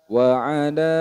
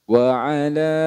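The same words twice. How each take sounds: No difference in how they are said.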